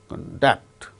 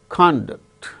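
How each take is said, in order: First: The stress is on the second syllable. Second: The stress is on the first syllable. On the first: It is used as a verb. "The second syllable is stressed when they are used as verbs" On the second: It is used as a noun. "They gain stress on first syllable when they are used as nouns"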